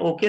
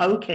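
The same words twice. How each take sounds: First: Said in the usual way. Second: ओके as "au-khay", aspirated K; English-style ओके said "au-KHAY"; British OK. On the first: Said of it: "ओके तो नहीं ना". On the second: Shown as a demonstration. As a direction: glide the O into "au", puff the K in ओके. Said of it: "ओ को औ बोलते हैं और के को खे".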